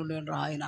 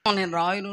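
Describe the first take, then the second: First: Stubborn refusal trailing off. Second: Said in the usual way. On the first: Retold or imitated. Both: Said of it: "అన్నాను".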